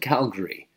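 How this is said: The name is said with English pronunciation. "They pronounce the names of places in French and English"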